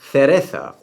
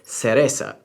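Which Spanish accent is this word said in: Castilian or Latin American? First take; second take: Castilian; Latin American. First: It is said in a Castilian Spanish accent. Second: It is said in a Latin American Spanish accent. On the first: "Castilian Spanish makes use of the apical S sound" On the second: "or in Latin America"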